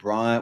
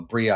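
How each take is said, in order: First: The name is said as Briar. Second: The name is said as Bria. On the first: The speaker calls it wrong. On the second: The speaker calls it right.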